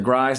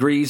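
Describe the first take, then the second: First: The name's vowel rhymes with 'fries'. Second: The name's vowel rhymes with 'grease'. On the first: "it rhymes with fries. So I'm going to say Grise" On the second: "not sure how you pronounce it"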